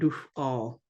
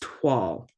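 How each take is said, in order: First: The word begins with a D sound. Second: The word begins with a T sound. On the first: The speaker calls it wrong. "It's not dual" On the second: The speaker calls it right. "it's twal"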